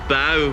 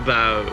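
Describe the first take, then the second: First: The pitch rises and then falls. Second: The pitch stays low throughout. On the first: "the first one has the up down tone" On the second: "the other's the low tone"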